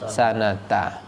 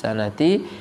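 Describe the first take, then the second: First: The word ends with an 'a' vowel. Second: The word ends with an 'i' vowel. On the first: The phrase is split off from what comes before. "kalau mau dipenggal boleh dibaca ramadhana asal nanti dibaca hadhis sanata" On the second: The phrase is read as one joined construction. "kalau mau dijadikan mudhaf berarti dibaca kasrah"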